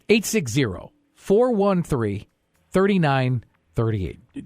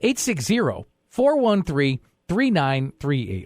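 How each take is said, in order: First: The number is said more slowly. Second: The number is said at normal speed.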